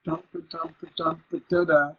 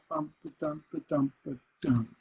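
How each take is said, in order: First: Steady chant, final "da da" strong then weak; feminine ending. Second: Steady chant closing on a stressed "dum"; masculine ending. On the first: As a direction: beat out "dump", let the last "da" dangle unstressed. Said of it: "starts with a feminine ending". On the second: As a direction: beat out "dump", land firmly on "dum". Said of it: "end on the next line with a masculine". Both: Shown as a demonstration.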